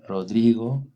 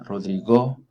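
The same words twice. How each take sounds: First: The stress is on the middle syllable. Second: The stress is on the last syllable. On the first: "La penúltima" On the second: "La última"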